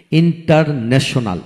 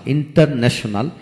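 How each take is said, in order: First: international broken into separate beats; syllable by syllable. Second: Said in the usual way. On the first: Shown as a demonstration. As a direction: pause between the parts of international. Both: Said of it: "যে word তিনের অধিক syllable থাকে".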